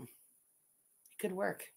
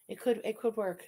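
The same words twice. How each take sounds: First: Very slow, much softer, drawn out; slow scheming musing. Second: Said in the usual way. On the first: Real, not acted. To chat, scheming a birthday party, slow and soft. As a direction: savour each word like a plotter. Slowly considering the idea.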